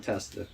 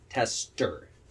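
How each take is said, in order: First: The word is said casually, in a relaxed way. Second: The word is said carefully, with deliberate effort. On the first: "when I just off the hip I'm saying it to somebody" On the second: "I have to force myself to say tester"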